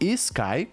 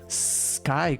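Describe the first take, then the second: First: An extra 'ee' vowel comes before the S. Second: The word starts directly with the S sound. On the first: The speaker calls it wrong. "como a gente costuma fazer é, em português" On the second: The speaker calls it right. "na verdade é sky, começa com som de S"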